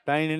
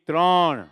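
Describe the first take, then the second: First: The word is said in a sloppy, unclear way. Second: The word is said in a crisp, clear way. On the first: The speaker calls it wrong. "ત્રણ નહીં" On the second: The speaker calls it right. "ચોખ્ખું બોલતા શીખો"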